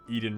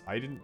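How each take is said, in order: First: The name begins with an 'ee' sound. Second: The name begins with an 'eye' sound.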